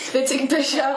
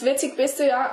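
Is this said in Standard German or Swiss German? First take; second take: Swiss German; Standard German. First: It is said in Swiss German dialect. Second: It is said in Standard German.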